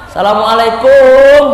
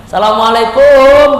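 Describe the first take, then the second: Both takes have the same delivery.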